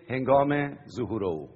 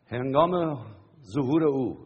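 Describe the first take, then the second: First: Said in the usual way. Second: هنگام and ظهور each set apart and leaned on, with a pause between; slow emphatic repeat. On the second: Shown as a demonstration. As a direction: repeat it word by word so it sinks in. (تکرار آهسته و با تأکید روی هنگام و ظهور)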